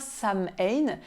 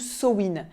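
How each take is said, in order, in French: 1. Le nom se prononce comme il s'écrit. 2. Le nom ne se prononce pas comme il s'écrit. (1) "ça ne se prononce pas Samhain" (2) "ça se prononce Samhain"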